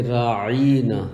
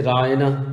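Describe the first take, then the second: First: راعینا with a long drawn-out "ee" after the ain; slow راعینا, the "ee" held long; lengthened vowel. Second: Said in the usual way. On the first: Shown as a demonstration. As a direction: stretch the middle of راعینا into "raa-EEE-naa". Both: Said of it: "تھوڑا سا اور لمبا کر کے".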